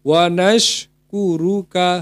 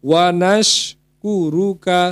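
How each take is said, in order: The two takes are said the same way.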